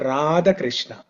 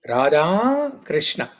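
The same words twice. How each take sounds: First: The first name ends in a short vowel. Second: The first name ends in a long vowel. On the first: The speaker calls it wrong. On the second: The speaker calls it right. "the females are described using long syllable"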